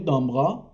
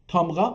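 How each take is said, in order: First: The word begins with a d sound. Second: The word begins with a t sound. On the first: This is how it is said in Tabriz. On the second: This is the form written in the dictionary.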